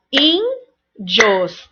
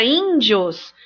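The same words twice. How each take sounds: First: "índios" split into ÍN, pause, DIOS; slow teacher's split of "índios"; syllable by syllable. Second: Said in the usual way. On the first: Shown as a demonstration. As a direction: break "índios" into two separate syllables. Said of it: "Pra não restar dúvida". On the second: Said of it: "a palavra índios".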